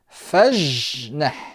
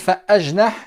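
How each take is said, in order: First: It runs straight from 'fa' into 'jnah'. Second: An extra vowel is sounded before 'jnah'. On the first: The speaker calls it right. "On va dire fajnah" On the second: The speaker calls it wrong. "est-ce qu'on va dire fa, ajnah? Non"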